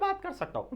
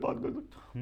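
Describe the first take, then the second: First: The voice is high and thin. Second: The voice is very low and thick. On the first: "पतली आवाज में भी बात कर सकता हूं" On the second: "इससे भी ज्यादा मोटी आवाज में"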